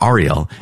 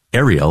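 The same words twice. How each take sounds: First: "Ariel" said AR-ee-el; alternative pronunciation. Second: "Ariel" said AIR-ee-el; first pronunciation. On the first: Offering the other reading, "Ariel" as AR-ee-el. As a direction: say "Ariel" with an open "ah" at the start. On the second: Offering a name for Jerusalem, "Ariel" as AIR-ee-el. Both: Shown as a demonstration. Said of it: "So Ariel or Ariel".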